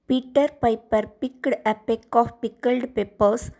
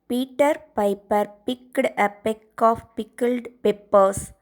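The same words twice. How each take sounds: First: It is said fast. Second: It is said slowly.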